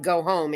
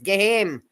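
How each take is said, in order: First: It is said in an American accent. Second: It is said in a strong Scottish accent.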